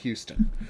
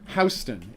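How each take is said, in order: First: The name is said the usual way. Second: The name is said the New York way. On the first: The speaker calls it right. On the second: The speaker calls it wrong.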